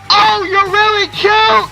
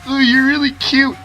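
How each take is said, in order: First: It is said loudly across a distance. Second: It is said quietly and intimately.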